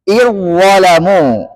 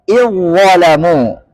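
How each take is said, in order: No difference in how they are said.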